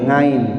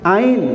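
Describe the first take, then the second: First: The word begins with an added ng sound. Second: The word begins directly with a vowel sound. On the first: The speaker calls it wrong. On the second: The speaker calls it right.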